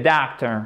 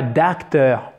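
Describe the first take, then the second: First: Doctor with a long vowel between A and O. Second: Docteur as English doctor with a plain long A, DAHK-ter; wrong full A. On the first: Teacher giving the correct model, doctor between A and O. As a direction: slightly round the long first vowel of doctor. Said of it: "C'est toujours entre le A et le O". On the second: Teacher warning learners of the mistake, docteur with too open an A. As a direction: overdo a pure A in docteur. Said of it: "attention, c'est pas docteur". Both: Shown as a demonstration.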